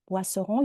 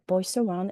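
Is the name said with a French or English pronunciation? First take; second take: French; English. First: The name is said with French pronunciation. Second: The name is said with English pronunciation. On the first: "I pronounce it the French way" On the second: "but you can say Boisseron"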